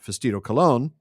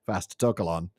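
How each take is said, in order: First: The name is said like a ballplayer's name. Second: The name is said in its plain way. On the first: The speaker calls it wrong. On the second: The speaker calls it right.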